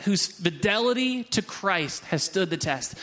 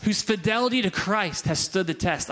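First: "Whose fidelity to Christ has stood the test" slowly, word by word; slow, deliberate repeat of "Whose fidelity to Christ has stood the test"; savoring emphasis. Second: Said in the usual way. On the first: Real, not acted. Repeats loved verse for emphasis.

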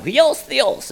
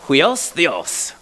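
First: Huios theos in a playful, much higher Greek accent, the h breathed into hwi; mock Greek accent. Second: Said in the usual way. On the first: Shown as a demonstration. Pastor shows off the Greek phrase to his congregation in a hammed-up Greek accent. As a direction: ham up Huios theos like a Greek speaker, pitched way up. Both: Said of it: "I wanna say it with a Greek accent".

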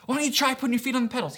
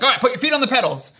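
First: Higher, quick, unforced coaxing; gentle encouraging. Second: Raised, rushed mock impatient command; frustrated ordering. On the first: Retold or imitated. Dad re-enacting coaxing his toddler to pedal, encouraging. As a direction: suggest it lightly to a small child. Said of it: "And I'm encouraging, I'm urging him". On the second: Dad imitating himself teaching his toddler to pedal, frustrated. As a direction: order it louder, higher and fast, acting fed up. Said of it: "I'm, like, getting frustrated".

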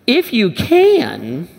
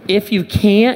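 First: Slow, rising stress on "can" in "If you can,"; Jesus echoes the doubting father, drawing out "can" with a rise; incredulous echo. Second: Said in the usual way. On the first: Retold or imitated. Jesus repeats the father's words, slow and questioning. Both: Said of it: "I love Jesus' response".

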